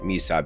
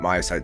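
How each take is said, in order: First: The first syllable has an 'ee' vowel. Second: The first syllable has an 'eye' vowel. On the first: The speaker calls it wrong. "so I might say me side" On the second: The speaker calls it right. "my side seems much more appropriate"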